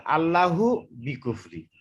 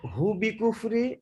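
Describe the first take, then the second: First: আল্লাহু বি কুফরি read slowly in one flowing run; joined as one. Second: হু বি কুফরি read slowly as its own unit, broken off from Allah; split after Allah. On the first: Student asks the imam which reading is correct, slow joined recitation. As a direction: keep it linked, no break. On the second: Student asks the imam which reading is correct, slow split recitation. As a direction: pause before হু, then read slowly. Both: Shown as a demonstration. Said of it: "কোনটা সঠিক হবে".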